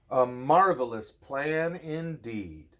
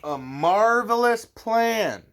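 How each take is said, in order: First: Said in the usual way. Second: Marvelous stretched high, slow and loud; marvelous said big and slow; dramatic emphasis. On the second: A narrator's reading. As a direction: make marvelous sound grand.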